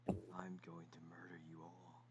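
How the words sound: It is said in a soft, gentle voice.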